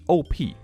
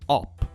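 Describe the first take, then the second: First: It is said as two separate letters. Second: It is said as a single word. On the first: The speaker calls it right. "It's only two letters, and it's like an acronym" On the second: The speaker calls it wrong. "How do you pronounce it op?"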